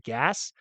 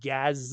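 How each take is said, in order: First: The word ends with a hissing S sound. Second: The word ends with a buzzing Z sound. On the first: "as opposed to gas" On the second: "We say it with a Z"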